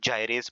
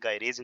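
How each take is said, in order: First: The word begins with a j sound. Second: The word begins with a hard g sound. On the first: "कोई लोग इसको जाइरेज़ पढ़ते हैं" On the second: "ये इसका नाम होता है डीएनए गायरेज़ एंजाइम"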